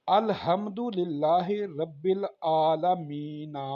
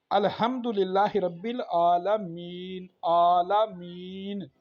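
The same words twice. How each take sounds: First: Slow recitation, sounding the ending as आलमीना with a final open "a"; wrong ending shown. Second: Recited with आलमीन cut off at the final n, no vowel after it; correct pause reading. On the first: Teacher showing the viewer the wrong reading, आलमीना voiced through to the end. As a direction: recite it slowly, carrying आलमीना on to a final vowel. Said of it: "मीना नहीं पढ़ेंगे". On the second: Teacher showing the viewer the right reading, आलमीन closed at the n. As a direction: stop dead on the n of आलमीन. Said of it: "मीन पढ़ेंगे". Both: Shown as a demonstration.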